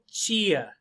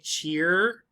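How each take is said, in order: First: The final r sound is dropped entirely. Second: The final r sound is clearly pronounced. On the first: "Other people, chia" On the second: "With R, some people say cheer"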